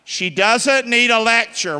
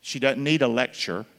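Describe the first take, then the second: First: Louder, higher and slower. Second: Said in the usual way. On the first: Shown as a demonstration. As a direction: call it out like a congregation response. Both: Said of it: "Say that out loud".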